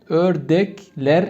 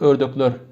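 First: The later vowels are unrounded, like e. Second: The later vowels are rounded, like ö. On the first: This is how the word is written. "Ördekler yazılır" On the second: This is how the word is spoken. "Biraz konuşmada farklı"

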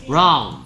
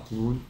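First: The vowel glides like 'ow'. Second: The vowel is a plain 'oo'. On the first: The speaker calls it right. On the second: The speaker calls it wrong.

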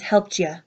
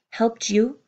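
First: The last word is reduced to a short 'ya'. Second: The last word ends in a full 'you' vowel. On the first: "and sometimes helped ya" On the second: "Sometimes I'll say helped you"

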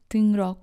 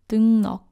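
First: The second syllable starts with an r sound. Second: The second syllable starts with an n sound. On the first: The speaker calls it wrong. "or 등록" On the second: The speaker calls it right. "you should read 리얼 as 너"

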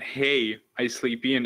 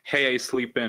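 First: There is a long pause after hey. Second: It flows on with no pause after hey.

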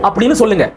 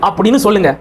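The two takes are said the same way.

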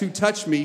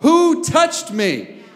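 First: It is asked quietly and politely. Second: It is yelled loudly.

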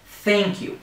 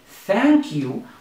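First: The vowel sounds like the letter A. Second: The vowel is short, as in cat. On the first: The speaker calls it right. "we're going to say thank you" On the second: The speaker calls it wrong. "we're not going to say thank you"

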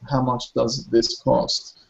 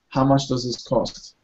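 First: The words are said slowly and clearly apart. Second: The words are said fast and run together. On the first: "unless you want to slow it down and pause almost" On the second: "if you were to hear a native speaker speak it fast"

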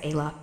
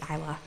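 First: The name begins with an 'ay' sound. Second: The name begins with an 'eye' sound. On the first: The speaker calls it wrong. "I used to pronounce it as Ayla" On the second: The speaker calls it right. "but it's Isla"

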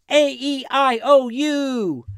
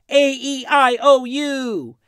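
The two takes are said the same way.

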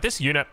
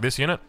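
First: It is said in a dismissive, unimpressed tone. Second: It is said in an excited, enthusiastic tone. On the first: The speaker used to dislike the unit. "Initially, I was like" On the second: The speaker now loves the unit. "Now I'm like"

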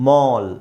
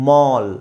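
No difference in how they are said.

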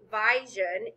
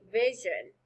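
First: The first vowel is a long I sound. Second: The first vowel is a short I sound. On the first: The speaker calls it wrong. "You wouldn't say vision" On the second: The speaker calls it right. "the correct way to say this word is really with a short I"

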